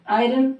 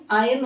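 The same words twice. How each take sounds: First: आयरन as aa-i-run; sounded R. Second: आयरन as aa-yun; silent R. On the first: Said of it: "आयरन नहीं". (आयरन में र साफ़) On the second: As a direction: drop the R from आयरन. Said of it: "आयरन होता". (आयरन को आयन बोलें) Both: Shown as a demonstration.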